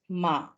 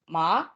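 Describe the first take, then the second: First: It is said in the third tone. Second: It is said in a rising tone. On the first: It means horse. "in the third tone" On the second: It is the name of a crop. "in the second tone, which is the rising tone"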